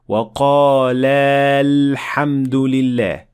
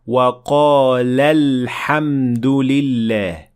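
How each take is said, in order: First: The alif is kept, giving a long vowel. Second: The alif is dropped, leaving a short vowel. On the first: The speaker calls it wrong. "We did not say ... That is not correct" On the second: The speaker calls it right. "Notice here we said"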